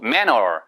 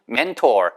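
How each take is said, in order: First: The middle t sound is dropped, like manner. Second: The middle t sound is clearly pronounced. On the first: "manner 이렇게 하는 경우도 있어요" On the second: "mentor 이렇게 안 하고"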